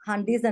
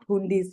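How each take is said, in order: First: The first vowel is a short 'uh' sound. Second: The first vowel is an 'oo' sound. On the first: The speaker calls it right. "this should be pronounced as" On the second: The speaker calls it wrong. "and not"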